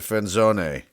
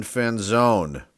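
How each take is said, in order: First: "Fanzone" with the final e sounded; alternative pronunciation. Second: "Fanzone" said as it is spelt; first pronunciation. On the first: Card collector unsure of a player's surname, alternative pronunciation. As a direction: try "Fanzone" with an extra syllable after zone. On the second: Card collector reading out a player's surname, first pronunciation. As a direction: say "Fanzone" ending like the word zone. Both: Shown as a demonstration. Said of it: "Or is it Fanzone?".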